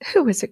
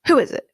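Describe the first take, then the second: First: It is said softly and sweetly. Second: It is yelled loudly.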